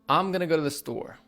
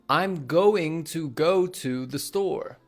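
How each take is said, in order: First: Going to is reduced to gonna. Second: Going to is said as two full words. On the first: The speaker calls it right. "We say" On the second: The speaker calls it wrong. "We don't say"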